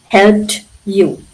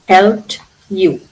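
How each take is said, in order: The two takes are said the same way.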